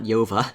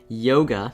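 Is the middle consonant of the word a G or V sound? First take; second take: V; G. First: The middle consonant is a V sound. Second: The middle consonant is a G sound. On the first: The speaker calls it wrong. "I completely just mi mispronounced that word" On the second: The speaker calls it right. "Yoga, not Yova"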